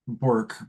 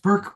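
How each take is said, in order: First: The vowel sounds like 'or' in 'fork'. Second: The vowel sounds like 'ur' in 'fur'. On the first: The speaker calls it wrong. "it looks like Bork" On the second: The speaker calls it right. "it's actually pronounced Burke"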